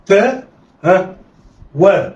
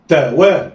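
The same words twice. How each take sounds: First: "تا" raised, a prompting "ها", then "وا"; letters sounded apart. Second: "تا وا" joined in one quick go; snatch "تا وا" with no pause; snatched together. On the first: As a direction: pause after "تا" before giving "وا". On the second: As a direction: blend "تا وا" like one word. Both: Shown as a demonstration. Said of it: "يلا، اخطف".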